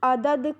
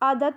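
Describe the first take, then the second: First: The final consonant is voiced. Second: The final consonant is voiceless. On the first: "ये घोष ध्वनि थी" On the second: "इसको हमने अघोष में परिवर्तित कर दिया"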